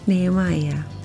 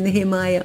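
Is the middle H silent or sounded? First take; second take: silent; sounded. First: The middle H is silent. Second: The middle H is sounded aloud. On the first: The speaker calls it right. "Esse H não é pronunciado" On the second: The speaker calls it wrong. "Seria Nehemiah, mas não é"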